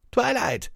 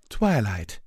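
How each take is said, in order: First: Loud high call of a name; crying out. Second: Relieved. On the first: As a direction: shout her name in alarm. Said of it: "Spike cried out". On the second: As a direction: say her name with relief. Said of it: "she said in relief". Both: Acted.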